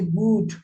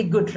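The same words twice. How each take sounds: First: Good with a long oo as in food; good rhymes with mood; wrong long good. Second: Good with a short oo as in foot; correct short good. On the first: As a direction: stretch good into goood, like gooed. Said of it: "We do not say good". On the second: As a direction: say good short and clipped, like put. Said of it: "We do not say good, we say good". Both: Shown as a demonstration.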